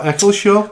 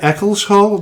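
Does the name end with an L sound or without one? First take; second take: without; L sound. First: The name ends in 'shaw' without an L sound. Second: The name ends in 'hall' with an L sound. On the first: This is how locals have been saying it. The speaker calls it wrong. "not Eccleshaw" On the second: This is how the search result says it. The speaker calls it right. "it said Eccleshall"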